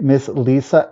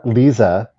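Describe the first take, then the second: First: Lisa said LEE-suh with a sharp s. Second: Lisa said LEE-zuh with a buzzing z. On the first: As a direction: Lisa pronounced with an s sound. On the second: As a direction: Lisa pronounced with a z sound. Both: Shown as a demonstration. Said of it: "Are you selling it Lisa or Lisa?".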